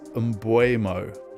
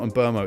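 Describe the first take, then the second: First: The name's middle sounds like 'bwe'. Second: The name's middle sounds like 'bur'. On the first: The speaker calls it right. "It is Mbuemo. that is how they say it in his native land" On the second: The speaker calls it wrong. "It's not Mburmo"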